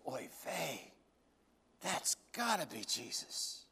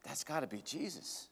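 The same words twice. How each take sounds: First: Much softer, with a hushed oy vey; a stunned murmur of recognition; awed hush. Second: Much softer and a little lower, rising at the end; a stunned half-whisper of recognition; awed hush. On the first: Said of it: "Peter goes". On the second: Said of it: "John looks up at him and says". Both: Acted.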